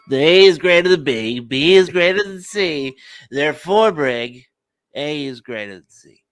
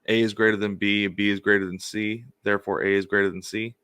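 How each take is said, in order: First: It is said in a put-on voice. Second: It is said in his normal voice.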